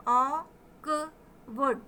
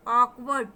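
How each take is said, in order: First: "ऑकवर्ड" slowly in three parts: ऑ-क-वर्ड; sounded out. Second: Said in the usual way. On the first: Shown as a demonstration. Teacher demonstrating the pronunciation, sound by sound. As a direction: separate "ऑकवर्ड" with clear gaps, opening on aw. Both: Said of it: "तो देखें इसका pronunciation".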